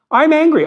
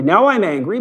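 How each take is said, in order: First: Higher, louder mock angry outburst on "I'm angry"; hammed-up flare of anger, pitch jumping up. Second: Said in the usual way. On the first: Husband imitating his anger at his wife, mock angry outburst.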